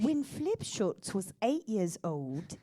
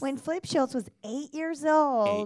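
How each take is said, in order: First: It is said in a put-on British accent. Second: It is said in a young child's voice.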